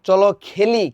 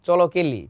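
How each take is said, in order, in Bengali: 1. "kh" ধ্বনিটি মহাপ্রাণ, একটু ফুঁ বেরোয়। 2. "k" ধ্বনিটি অল্পপ্রাণ, কোনো ফুঁ ছাড়া।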